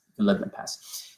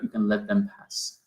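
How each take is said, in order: First: Breathy whispered repeat, letting it drift; soft unvoiced echo of the line. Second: Said in the usual way. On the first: Shown as a demonstration.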